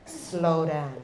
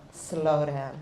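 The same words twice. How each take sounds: The two takes are said the same way.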